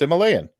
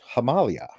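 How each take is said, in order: First: It is said with a spelling-based American pronunciation. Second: It is said with the native speakers' pronunciation. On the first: The speaker calls it wrong. "It's phonetically pronounced Himalayan" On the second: The speaker calls it right. "but apparently it's pronounced Himalaya"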